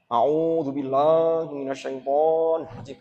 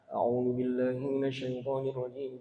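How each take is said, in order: First: It is recited quickly but vowels are overlong. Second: It is recited fairly quickly with short vowels. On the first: "Kedawan. Dirungono gak enak" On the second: "model tadwir. Dengan agak cepat"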